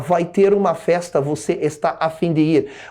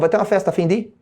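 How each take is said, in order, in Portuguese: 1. Cada palavra é dita inteira e separadamente. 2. As palavras se emendam numa frase só, reduzida. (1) "ninguém fala" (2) "Você junta tudo esse troço e fala"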